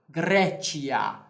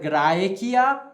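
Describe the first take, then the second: First: It uses the ecclesiastical Latin pronunciation. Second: It uses the restored classical Latin pronunciation. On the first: "na pronúncia que estamos usando" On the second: "não vamos dizer na reconstituída aqui"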